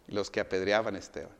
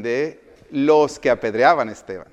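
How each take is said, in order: First: Said in the usual way. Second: "De los que apedreaban a Esteban" loud, leaning hard on "los"; emphatic answer. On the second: Real, not acted. Preacher corrects himself on whose clothes they were, emphatic.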